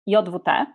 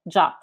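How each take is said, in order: First: The letters are spoken with Polish letter names. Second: It is spoken as a single short word. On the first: "As a native Polish speaker, I pronounce it as JWT" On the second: "the RFC suggests the same pronunciation as the English word JUT"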